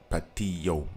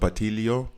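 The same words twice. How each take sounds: First: The double L is said as a Y sound. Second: The double L is said as a clear L. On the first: "double L is ya ... would be it in Spanish" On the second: "you're supposed to be like tilo"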